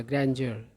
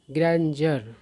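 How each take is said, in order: First: ग्रैंडर again as "grendjer", falling and settled; repeated model pronunciation. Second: ग्रैंडर said as "grænd-jər", stress on the first syllable; correct pronunciation. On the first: Teacher repeats ग्रैंडर for the class. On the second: Teacher models ग्रैंडर for students. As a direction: say ग्रैंडर clearly as "grendjer". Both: Shown as a demonstration. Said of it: "इसको ग्रैंड्योर नहीं पढ़ना".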